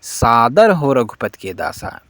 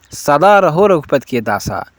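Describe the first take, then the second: First: सादर हो said clearly, सादर with a long first a; correct reading shown. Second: सदा रहो said as the mistaken version; wrong reading shown. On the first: Teacher gives students the correct reading, carefully. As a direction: give सादर हो as the right words. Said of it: "जबकि सही उच्चारण क्या है". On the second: Teacher quotes the wrong line to students, plain. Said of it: "एक और गलती मिल चुकी है". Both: Shown as a demonstration.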